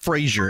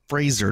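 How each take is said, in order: First: The middle consonant is a 'zh' sound. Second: The middle consonant is a plain 'z' sound. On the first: The speaker calls it wrong. "not Frasier" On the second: The speaker calls it right. "And it's Fraser"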